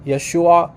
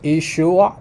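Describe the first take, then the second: First: Yeshua said with an opening "yeh", as "yeh-SHOO-a"; other dialect variant. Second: Yeshua said with an opening "ee", as "ee-SHOO-a"; Eastern-or-Western variant. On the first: Host showing viewers the other dialect's form, Yeshua as "yeh-SHOO-a". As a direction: start Yeshua on a y-glide. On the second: Host showing viewers one dialect's form, Yeshua as "ee-SHOO-a". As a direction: start Yeshua on a pure "ee" vowel. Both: Shown as a demonstration. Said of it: "minor difference in how they pronounce".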